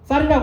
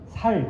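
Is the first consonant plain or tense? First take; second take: tense; plain. First: The first consonant is a tense s. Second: The first consonant is a plain s. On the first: The speaker calls it right. "쌀 발음을 못해요" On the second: The speaker calls it wrong. "쌀이라고 하면 살 그겁니다"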